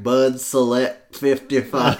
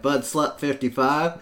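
First: It is said a little more slowly. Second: It is said fast and slurred together.

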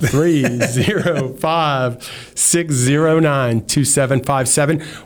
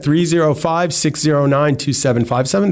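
First: The number is said slowly, Texas style. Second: The number is said fast, New Yorker style.

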